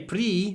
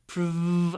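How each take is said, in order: First: The syllable has a full, clear vowel. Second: The syllable has a short, reduced vowel. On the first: The speaker calls it wrong. "We don't say pre" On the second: The speaker calls it right. "but prevent"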